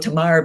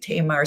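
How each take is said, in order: First: The stress is on the last syllable. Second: The stress is on the first syllable. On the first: This is how it is said in Hebrew. "in Hebrew you usually put the accent on the end" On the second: This is how it is said in America. "in America they usually say Tamar"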